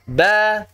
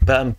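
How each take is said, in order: First: The syllables are said with a clear, non-breathy vowel. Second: The syllables are said with a breathy, airy vowel. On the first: The speaker calls it right. "Yang penting jangan diudarakan harokatnya" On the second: The speaker calls it wrong. "Jangan sampai membaca ba, bi, bu ya"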